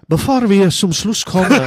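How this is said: It is said in a put-on crooner's voice.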